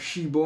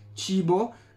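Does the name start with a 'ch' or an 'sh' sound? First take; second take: sh; ch. First: The name starts with an 'sh' sound. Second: The name starts with a 'ch' sound. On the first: The speaker calls it right. "anzi si dovrebbe pronunciare Shibo" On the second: The speaker calls it wrong. "scritto Cibo ma si pronuncia Shibo"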